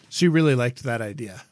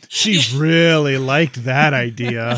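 First: It is said with only mild sarcasm. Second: It is said with heavy, exaggerated sarcasm. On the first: The speaker calls it wrong. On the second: The speaker calls it right.

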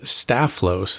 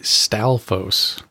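First: The F sound comes before the L. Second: The L sound comes before the F. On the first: The speaker calls it wrong. "I had the L and the F mixed up" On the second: The speaker calls it right. "is actually Stalphos"

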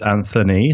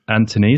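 First: The middle sound is a th. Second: The middle sound is a plain t.

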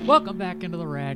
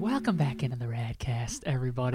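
First: It is said very loudly, almost screamed. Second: It is said very quietly, hard to hear.

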